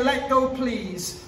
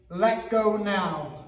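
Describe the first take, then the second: First: Slow, gentle let go please; polite request. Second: Slow, firm let go now; stern, each word deliberate; firm self-defense command; firmer command. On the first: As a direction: ask nicely and calmly. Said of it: "I even like to say". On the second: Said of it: "say it a bit stronger". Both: Shown as a demonstration.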